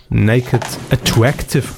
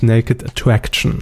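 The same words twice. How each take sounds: First: "Attractive" ending in -tive; title as misspelt. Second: "Attraction" ending in -tion; the proper title, "Attraction" ending in -shun; correct title. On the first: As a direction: read "Attractive" as written, ending in -iv. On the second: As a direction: say "Attraction" with a final -shn. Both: Real, not acted. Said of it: "es heißt Naked Attraction".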